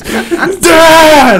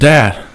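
First: It is screamed at the top of the lungs. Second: It is called out at a moderate volume.

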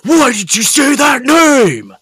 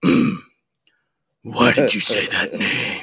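First: It is said in his normal voice. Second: It is said in a gravelly Batman voice.

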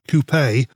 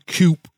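First: The word is pronounced the European way. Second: The word is pronounced the American way.

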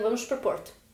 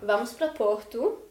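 First: It is said with a harder European accent. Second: It is said with a soft Brazilian accent.

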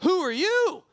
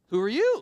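First: It sounds startled and surprised. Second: It sounds puzzled and uncertain. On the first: He is startled to find someone there. "Was it shocked?" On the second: He is puzzled by who is there. "Like was it confused?"

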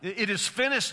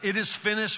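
First: It sounds strong and triumphant, like a shout. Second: It sounds weak and defeated, like a death rattle.

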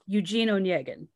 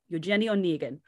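First: The name is said with an American pronunciation. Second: The name is said with a Russian pronunciation. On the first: "which is to us" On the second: "if you want to pronounce this book correctly, it's Eugenie Onegin"

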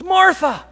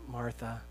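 First: The name is said loudly. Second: The name is said at normal volume.

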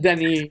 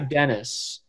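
First: The final S is not pronounced. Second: The final S is pronounced. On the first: The speaker calls it right. "You just don't say the S" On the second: The speaker calls it wrong. "Most people say Dennis"

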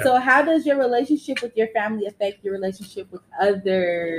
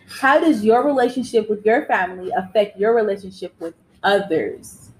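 First: It is read at normal speed. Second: It is read slowly.

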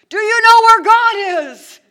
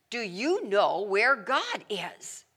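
First: It is shouted at full volume. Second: It is said in a louder voice.

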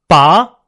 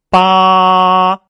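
First: The pitch rises from mid to high. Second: The pitch stays high and level throughout. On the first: "依然是同样的音，不同的音调来体会一下" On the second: "起音是八，结束也是啊，没有高低变化"

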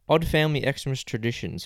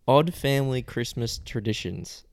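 First: It is read at a normal, quicker pace. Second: It is read slowly and deliberately.

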